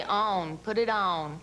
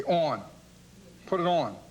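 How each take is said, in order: First: ON said the Southern way, drawn toward "own"; Southern-accented ON, as an example; Southern pronunciation. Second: ON said the Philadelphia way; Philadelphia-accented ON, as an example; Philadelphia pronunciation. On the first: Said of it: "We'd say". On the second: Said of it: "We say things like". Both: Shown as a demonstration.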